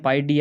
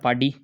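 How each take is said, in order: First: Pi and D are said as separate words. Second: Pi and D are merged into one word, paadi. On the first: This is the proper name of the formula. "वैसे पाई डी होता है" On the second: This is a joking, Marwari-style way of saying it. "इसको हंसी मजाक में पाडी कर देते हैं"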